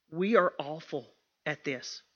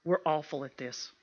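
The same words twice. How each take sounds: First: ARE given its own full weight, unhurried; stress on ARE. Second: Said in the usual way. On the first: Real, not acted. Admitting a fault to the women, stress on ARE. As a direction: lean deliberately on "are", low and soft. Repeats it, uncontracted, for emphasis.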